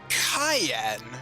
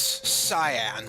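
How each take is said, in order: First: It sounds like the word cayenne pepper. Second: It sounds like the color word cyan. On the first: It follows the original Japanese name. "in Japan, his name is Cayenne, which is, uh, kind of like the cayenne pepper" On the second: It follows the English spelling. "the name here reads cyan, like the color"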